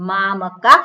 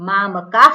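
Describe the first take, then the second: Both takes have the same delivery.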